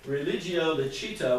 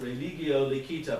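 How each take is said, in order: First: It is pronounced in the ecclesiastical Latin style. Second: It is pronounced in the Germanic Latin style. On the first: "for those of you who know ecclesiastical Latin" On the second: "Germanic Latin, because that's where I grew up, and we would pronounce it"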